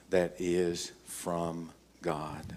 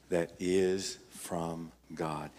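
First: Slow, leaning hard on "that" in "that is from God"; preacher stressing "that" to the congregation, slowly. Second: Slow, pressing the word "is" in "That is from God"; preacher repeating the verse, now weighting "is", slowly; stress on is. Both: Shown as a demonstration. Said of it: "Notice here in nineteen".

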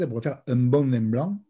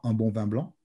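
First: "un bon vin blanc" in a Marseille accent, the nasals split apart. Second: Said in the usual way. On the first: Shown as a demonstration. Teacher contrasts with standard, Marseille accent. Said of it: "avec un accent marseillais assez prononcé". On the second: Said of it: "d'une manière assez standard".

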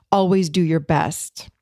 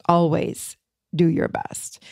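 First: Said in the usual way. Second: Slow, with a pause after "Always"; slow emphatic repeat. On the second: Real, not acted. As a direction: let "Always do your best" sink in, word by word. Repeats agreement slowly to sink in.

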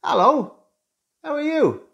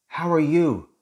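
First: Bright, much higher sing-song hello; friendly greeting. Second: Said in the usual way. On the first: Shown as a demonstration. Coach showing how you greet someone in the street, friendly and higher. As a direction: lilt the greeting up high like a friendly neighbour. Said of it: "No, you say". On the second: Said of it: "A question".

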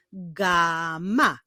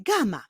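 First: GAMA very slowly as GAAA, MA; teacher revealing GAA-MA; syllables drawn out. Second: Said in the usual way. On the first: Shown as a demonstration. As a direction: stretch the first syllable of "gama". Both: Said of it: "Zbudowany jest z dwóch sylab".

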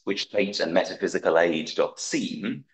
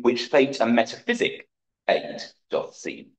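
First: Said in the usual way. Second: "metaphysic" said with the final syllable dropped; syllable cut. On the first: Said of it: "amend Macbeth's line in the folio text". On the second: Shown as a demonstration. Lecturer reading the editors' trimmed Macbeth line, one syllable shorter.

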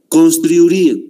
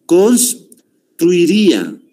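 First: Said in the usual way. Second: "Construiría" slow and raised, pause after "Cons"; broken into parts. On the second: Shown as a demonstration. Teacher showing the weak vowels, "Construiría" slowly in separated parts. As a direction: break "Construiría" after the first syllable and stretch it. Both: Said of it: "Y aquí está".

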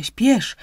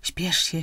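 First: "śpiesz" higher and much louder, pushed out urgently; urgent hurry. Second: Said in the usual way. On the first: Acted. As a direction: snap "śpiesz" high and loud to hurry him. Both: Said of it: "mówiła żywo żona".

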